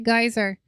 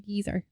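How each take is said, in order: First: The first vowel sounds like 'eye'. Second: The first vowel sounds like 'ee'. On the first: This is how Americans say it. "American English say geyser" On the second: This is how people on this side of the world say it. "This side of the coun- of the of the world say geezer"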